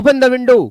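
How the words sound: It sounds stern and authoritative, like a command. Someone in authority is commanding it. "फिर ये command में चला जाएगा"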